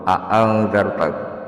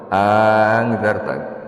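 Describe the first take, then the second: First: Both glottal stops at the start are fully pronounced. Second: The two glottal stops merge into one sound. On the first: "dibaca tahkik" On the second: "bil idgham"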